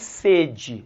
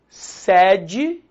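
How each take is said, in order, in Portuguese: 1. A vogal tônica é um e fechado. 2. A vogal tônica é um e aberto. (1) "estou com sede" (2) "sede da empresa"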